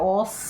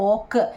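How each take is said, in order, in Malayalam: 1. ഈ അക്ഷരം s ശബ്ദത്തിലാണ് അവസാനിക്കുന്നത്. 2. ഈ അക്ഷരം k ശബ്ദത്തിലാണ് അവസാനിക്കുന്നത്. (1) "ഓസ് അല്ല" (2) "ഓക്ക് കേട്ടോ"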